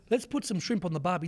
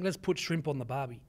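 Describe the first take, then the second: First: Said in the usual way. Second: Mock Aussie cliché. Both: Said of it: "the people keep saying".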